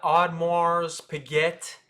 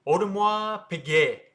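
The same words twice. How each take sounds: First: Audemars Piguet as odd-marz pih-get; Americanized Audemars Piguet with S and T sounded; mispronunciation. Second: Audemars Piguet said as oh-duh-mwah pee-gay; French pronunciation. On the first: Teacher shows viewers how not to say it, mispronounced. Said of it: "It's not Audemars Piguet". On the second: Teacher models the brand name for viewers, French pronunciation. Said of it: "that's how you say". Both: Shown as a demonstration.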